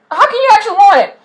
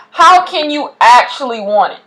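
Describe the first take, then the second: First: "How can you actually want it?" flung out higher and faster; higher, faster repeat. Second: Said in the usual way. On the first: Shown as a demonstration. Vlogger pressing viewers who won't put in work, higher and faster. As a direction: push the question up, quick and incredulous. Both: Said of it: "repeated question, second more intense".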